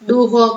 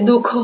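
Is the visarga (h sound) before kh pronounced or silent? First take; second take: pronounced; silent. First: An h sound is voiced before kh. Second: The visarga h sound is left silent. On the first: The speaker calls it wrong. "એ બોલી નથી બોલતા" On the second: The speaker calls it right. "આપણે બોલે દુઃખ"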